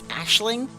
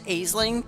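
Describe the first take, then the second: First: The first syllable sounds like 'ash'. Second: The first syllable does not sound like 'ash'. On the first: The speaker calls it right. "its true pronunciation is Ashling" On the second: The speaker calls it wrong. "I always call it Aisling"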